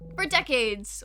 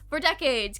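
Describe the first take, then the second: First: It is read in the reader's ordinary voice. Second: It is read in a put-on news reporter voice.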